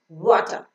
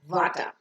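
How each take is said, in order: First: The first sound is made with rounded lips. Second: The first sound is made without rounded lips. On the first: The speaker calls it right. "It's rounding your lips and pronouncing water" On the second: The speaker calls it wrong. "not water"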